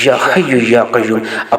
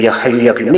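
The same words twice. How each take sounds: First: The phrase is said slowly and softly. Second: The phrase is said hurriedly and abruptly. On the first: The speaker calls it right. "इंतहाई तहम्मुल से, इंतहाई नरम नरमी से" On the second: The speaker calls it wrong. "इस तरह नहीं पढ़ना"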